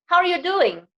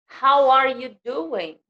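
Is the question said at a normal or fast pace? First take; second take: fast; normal. First: The question is said quickly, the way natives say it. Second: The question is said at a normal, careful pace.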